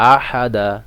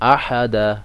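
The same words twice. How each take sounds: Both takes have the same delivery.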